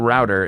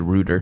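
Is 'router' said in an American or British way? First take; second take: American; British. First: It is said the American way, like 'rowter'. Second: It is said the British way, like 'rooter'.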